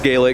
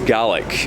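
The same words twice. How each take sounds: First: The word is pronounced the Irish way. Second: The word is pronounced the Scottish way. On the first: It names the language of Ireland. "for Ireland it's Gaelic" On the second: It names the language of Scotland. "for Scotland it's Gaelic"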